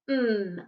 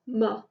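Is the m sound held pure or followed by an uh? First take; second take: pure; with uh. First: A long pure m sound with no vowel. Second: A short m followed by an uh vowel. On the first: The speaker calls it right. "Instead of mm" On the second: The speaker calls it wrong. "people might say m. Uh"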